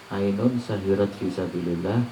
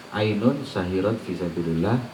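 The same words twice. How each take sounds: The two takes are said the same way.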